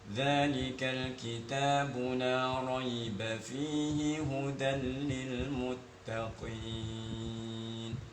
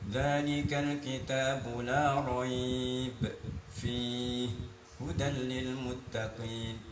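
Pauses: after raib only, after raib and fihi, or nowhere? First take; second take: nowhere; raib and fihi. First: It runs through without any pause. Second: It pauses after both raib and fihi. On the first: The speaker calls it right. "kita nafasnya panjang nih, bacanya begini" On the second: The speaker calls it wrong. "Misalkan baca gini, ... Ya nggak bisa begitu"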